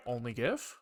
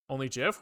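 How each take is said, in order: First: "gif" with a hard g, as in gift. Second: "gif" with a soft g, like jif. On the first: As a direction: start "gif" on a hard g sound. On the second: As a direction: start "gif" on a j sound. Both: Real, not acted. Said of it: "If I say gif or gif".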